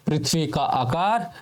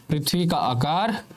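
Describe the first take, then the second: No difference in how they are said.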